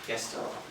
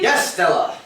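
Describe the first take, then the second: First: It is said flatly, without enthusiasm. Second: It is said with enthusiasm.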